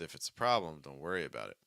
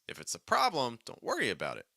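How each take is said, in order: First: The pitch moves up and down more smoothly. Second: The pitch jumps up and down dramatically. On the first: "and then more a little smoother" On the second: "Let's do dramatic pitch changes"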